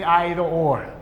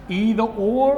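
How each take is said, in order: First: Either said as EYE-ther, starting with the eye sound; either pronounced EYE-ther, the British way. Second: Either said as EE-ther, long ee like in "see"; Either pronounced EE-ther, the American way. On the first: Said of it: "or you can say either or". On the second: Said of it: "pronounce the word either or either". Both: Shown as a demonstration.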